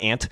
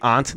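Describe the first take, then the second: First: The word is said with the other common pronunciation. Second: The word is said with a Northeastern pronunciation. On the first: "not aunt" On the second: "I'm one of the few that say aunt ... Northeast in me"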